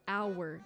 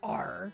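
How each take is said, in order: First: The word has a soft, light R sound. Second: The word has a strong, pirate-like R sound. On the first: The speaker calls it right. "it's our" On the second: The speaker calls it wrong. "what is this R? ... not our"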